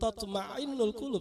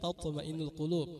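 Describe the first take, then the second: First: A throaty ain sound is used in the word. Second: A plain glottal stop is used in the word. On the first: The speaker calls it wrong. "Bukan tatma'innul qulub, salah" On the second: The speaker calls it right. "Jadi pakai hamzah"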